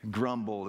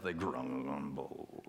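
First: Said in the usual way. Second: Grumbling sound. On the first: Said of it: "I love that word". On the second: Shown as a demonstration. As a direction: grumble low and slow, rumbling the word grumble. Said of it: "the sound of the grumble in the word itself".

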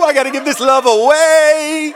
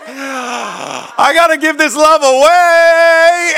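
First: High, loud, in an altered voice; hammed-up ecstatic convert; mock rapture. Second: Very high, loud and very slow, stretching every word; hammed-up stretched-out ecstasy; drawn-out rapturous shout. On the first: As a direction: sing it out like you're overflowing. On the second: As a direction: belt it out like a revival cry. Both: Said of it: "You were like".

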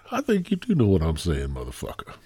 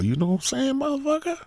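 First: Low answer. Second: Squeaky-high mock question; high-pitched needling. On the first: Pretend. Host answering his own question, dropping low. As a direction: voice sinking and softening to the end. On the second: Host joking at [name], high-pitched needling question.

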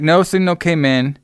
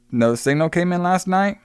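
First: "No signal came in" as a high statement; firm answer. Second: "no signal came in" high, rising into a question; puzzled question. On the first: Harlan answers Max about the recording, stating "No signal came in". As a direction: retell the answer, "No signal came in" stated rather than asked. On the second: Max questions Harlan about the missing recording, voice rising on "last night". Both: Retold or imitated.

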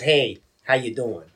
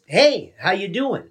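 First: Slow, low-pitched "Hey, how you doing?"; low, slow, downbeat retelling of a greeting; someone else's misreading. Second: Slow, drawn-out "Hey", pitched up; slow lilting greeting; his own intended reading. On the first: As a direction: drop "Hey" low and drag it out. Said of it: "telling somebody else it was". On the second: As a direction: stretch "Hey" high, then ease into the question. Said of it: "the way that I say it is". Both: Shown as a demonstration.

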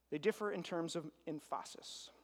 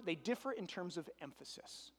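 First: "emphasis" stressed on its second syllable, em-FAH-sis; stress on wrong syllable. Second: Said in the usual way. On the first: Shown as a demonstration. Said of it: "Put the wrong emphasis on the wrong syllable". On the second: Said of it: "Put the wrong emphasis".

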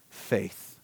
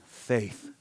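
First: "faith." dropped low and soft, drawn out; emphatic single word. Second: "faith." low and soft again, set apart; emphatic single word. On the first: Preacher telling the congregation to write it down, "faith." low and soft. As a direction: land "faith." low and quiet, set apart. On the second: Preacher repeating the one thing Jesus asks, "faith." low and soft. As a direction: let "faith." fall low and quiet as a refrain. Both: Shown as a demonstration. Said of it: "Write this down".

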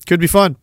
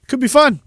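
First: Said in the usual way. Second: Sing-song. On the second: Shown as a demonstration.

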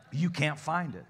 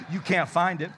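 First: Can't said through a light laugh; laughing repeat. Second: Louder, punching can't; emphatic challenge. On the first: Real, not acted. Preacher repeating his dare to the congregation, laughing. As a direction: chuckle it, relaxed now. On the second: Shown as a demonstration. Preacher daring the church to find one refusal, emphatic. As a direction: dare the congregation, hitting can't hard. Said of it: "you find me one person".

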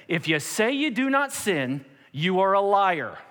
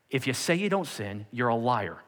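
First: Emphatic, raised-pitch pronouncement; forceful, uncompromising verdict. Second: Matter-of-fact, lower-key verdict; unbothered, no-apology bluntness; blunt restatement. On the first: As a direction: lay it down as absolute fact, ending slow. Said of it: "he was a man of say it like it is". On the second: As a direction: say it plainly, dropping on the accusation. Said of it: "He wasn't like". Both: Acted.

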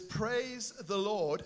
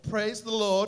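First: Said in the usual way. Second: Loud, ringing Praise the Lord; with an exclamation mark. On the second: Shown as a demonstration. Pastor leading the congregation, loudly exclaimed. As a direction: proclaim it like it ends in an exclamation mark. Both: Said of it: "could you say that with the exclamation mark".

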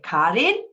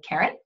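First: Put-on name in a German accent, higher and louder; mother's German accent. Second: Said in the usual way. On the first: Mother calling her devastated daughter by name, German accent. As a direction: imitate a mother's German accent, pitch lifted. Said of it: "She has an accent". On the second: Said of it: "or she would say".

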